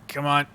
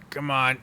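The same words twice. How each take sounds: The two takes are said the same way.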